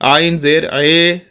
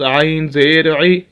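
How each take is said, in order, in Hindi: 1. अंतिम स्वर 'ay' ध्वनि है। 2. अंतिम स्वर शुद्ध 'ee' ध्वनि है। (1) "अब इसको कोई पढ़े" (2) "इसका सही तलफ़ुज़"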